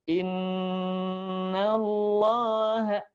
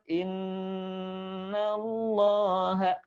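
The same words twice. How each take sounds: The two takes are said the same way.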